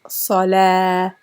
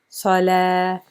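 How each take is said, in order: The two takes are said the same way.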